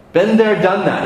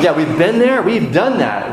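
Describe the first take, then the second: First: Put-on British accent. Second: Said in the usual way. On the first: Pastor answering the congregation in a British accent. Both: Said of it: "Did you say that with a British accent?".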